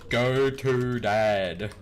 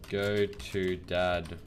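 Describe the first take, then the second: First: Loud, very drawn-out command; laboured, loud spelling-it-out delivery; exasperated repeat. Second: Slow, drawn-out words; slow typing voice. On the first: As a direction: stretch every word out loudly. Repeats command the game rejected. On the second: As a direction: say it slowly while typing it. Reading out a typed command. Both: Real, not acted.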